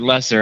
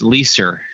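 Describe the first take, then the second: First: The first syllable sounds like 'less'. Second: The first syllable sounds like 'lease'. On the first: The speaker calls it wrong. "Most people say lesser" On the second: The speaker calls it right. "it's lease with an R on the end"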